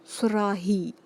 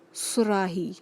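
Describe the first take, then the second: No difference in how they are said.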